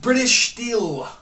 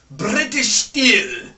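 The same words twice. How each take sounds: First: It is said in his ordinary everyday accent. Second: It is said in a posh, put-on accent.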